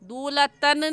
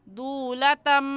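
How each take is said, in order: First: The word ends with an n sound. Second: The word ends with an m sound. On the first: The speaker calls it wrong. "दूलतन नहीं कहना" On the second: The speaker calls it right. "कैसे पढ़ना है?"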